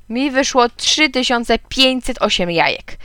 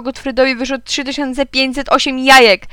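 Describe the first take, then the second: First: Said in the usual way. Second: Higher, sustained announcing voice; amused, high-pitched call. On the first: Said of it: "powiedział Gottfried". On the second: A narrator's reading. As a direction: announce it to the whole schoolyard. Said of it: "zawołał".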